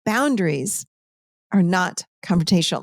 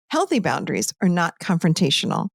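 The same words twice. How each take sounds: First: Said in the usual way. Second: Healthy said first and weighted, then falling; stress on Healthy. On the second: Shown as a demonstration. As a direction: lean on the word Healthy and let the rest fall. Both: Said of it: "Let me say it again".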